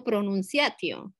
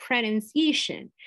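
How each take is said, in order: First: "pronunciatio" cut short, with no final n and no -tion sound; wrong pronunciation. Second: "pronunciation" said slowly with the English -shon ending; correct English pronunciation. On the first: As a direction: say "pronunciatio" as the wrong, clipped form. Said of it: "yo no digo pronunciatio". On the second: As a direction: model "pronunciation" carefully in English. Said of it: "yo no digo pronunciatio, es". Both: Shown as a demonstration.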